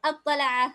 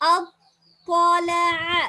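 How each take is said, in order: First: The word is rushed through quickly. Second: The word is said slowly, holding the consonants. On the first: The speaker calls it wrong. "எல்லாரும் அவசரத்தில் ஓடுற" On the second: The speaker calls it right. "அப்படி இல்ல"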